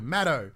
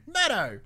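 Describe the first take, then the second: First: Said in the usual way. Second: High, hammed-up Australian shout; playful Australian accent, pitched way up; exaggerated Australian. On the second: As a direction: call it out in broad Australian. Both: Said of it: "that's very Australian".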